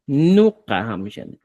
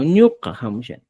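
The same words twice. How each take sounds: First: "nuka hamshani" slowly, starting on plain N; slow down "nuka hamshani", clear N onset; pronounced with N. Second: "ñuka hamshani" starting on palatal Ñ; pronounced with Ñ. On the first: Teacher showing one usable form, "nuka" with N. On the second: Teacher showing other usable form, "ñuka" with Ñ. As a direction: turn the first N of "ñuka" into NY. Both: Shown as a demonstration. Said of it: "Puedes utilizar así".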